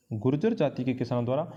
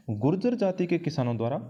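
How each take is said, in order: Both takes have the same delivery.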